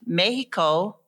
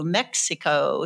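First: It is said with a Spanish pronunciation. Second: It is said with an American English pronunciation. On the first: This is how people in Mexico say it. "is actually pronounced Mexico in Spanish" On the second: This is how people in the United States say it. "why we've changed that over to Mexico"

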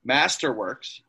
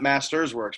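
First: It is said without an s after 'Master'. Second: It is said with an s after 'Master'. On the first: The speaker calls it right. "Masterworks, not Masters Works" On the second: The speaker calls it wrong. "not Masters Works"

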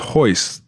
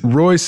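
First: The name begins with an H-like sound. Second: The name begins with an English R sound.

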